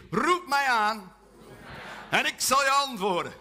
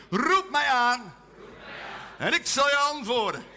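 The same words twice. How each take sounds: First: Langzaam, luid en nadrukkelijk; voorgedaan vers. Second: Langzaam, luid en nadrukkelijk; zing-zeg het vers voor; geoefend vers. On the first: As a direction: elk woord apart neerzetten. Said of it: "ik doe het even voor". (gemeente het vers leren) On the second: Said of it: "Even oefenen". (samen het vers oefenen) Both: Shown as a demonstration.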